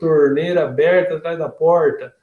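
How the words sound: It is said in a western Paraná/São Paulo accent. The speaker is from western São Paulo or Paraná. "se ela é aqui do, do oeste de São Paulo, do oeste do Paraná, ela fala"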